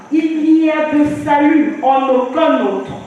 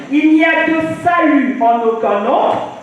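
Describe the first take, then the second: Both takes have the same delivery.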